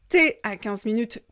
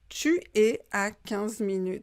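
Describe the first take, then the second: First: Tu es is contracted to one syllable. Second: Tu and es are said as two syllables. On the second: "tu es"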